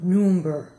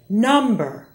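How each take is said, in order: First: The first vowel is a rounded 'oo' sound. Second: The first vowel is an open 'uh' sound. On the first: The speaker calls it wrong. "not number" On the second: The speaker calls it right. "Say number"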